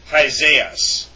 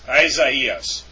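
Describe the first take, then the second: First: The two vowels merge into one, giving three syllables. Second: The two vowels are said separately, giving four syllables. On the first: The speaker calls it wrong. "Not Hazaias" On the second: The speaker calls it right. "is pronounced with four syllables"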